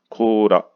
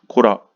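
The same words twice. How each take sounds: First: The first vowel is long, two beats. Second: The first vowel is short, one beat. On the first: The speaker calls it right. "코라 이렇게 이야기를 해야 돼요" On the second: The speaker calls it wrong. "코라 이렇게 되면 못 알아듣습니다"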